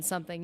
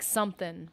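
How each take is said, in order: First: Said in the usual way. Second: "something" said as somethin', ending in a plain N; dropped G. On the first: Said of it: "rather than something". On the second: Shown as a demonstration. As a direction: drop the final G of "something". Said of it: "You drop the G's".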